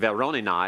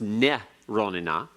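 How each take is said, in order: First: The word begins with a V sound. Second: The word begins with an N sound. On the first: The speaker calls it wrong. "I was saying Veronina" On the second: The speaker calls it right. "it's Ne-ronina"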